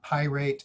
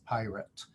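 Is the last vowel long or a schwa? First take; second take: long; schwa. First: The last vowel is a long a sound. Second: The last vowel is a reduced schwa sound. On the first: The speaker calls it wrong. "it's not pirate" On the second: The speaker calls it right. "it's pirate"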